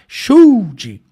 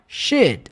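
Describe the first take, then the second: First: The L sound is pronounced in the word. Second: The L is silent and the word is clipped. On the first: The speaker calls it wrong. "Então você não fala should" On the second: The speaker calls it right. "Você vai falar should. Seco mesmo"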